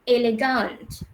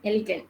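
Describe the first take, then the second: First: It is pronounced with German vowel sounds. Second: It is pronounced with English vowel sounds. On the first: "so bahasa Jerman... sebutan dia adalah elegant" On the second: "dalam bahasa Inggeris awak sebut macam mana yang ni?"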